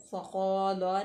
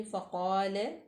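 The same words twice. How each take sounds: First: फ़क़ाला with an added final aa; the incorrect reading; wrong way. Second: फ़क़ाल ending on a light laam, heavy qaaf; thin laam. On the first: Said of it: "फ़क़ाला नहीं करेंगे". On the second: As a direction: say फ़क़ाल with no extra vowel. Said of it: "लाम जो है उसको बारीक पढ़ेंगे". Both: Shown as a demonstration.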